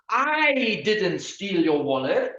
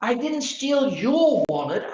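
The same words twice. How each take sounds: First: The stress is on "I". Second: The stress is on "your".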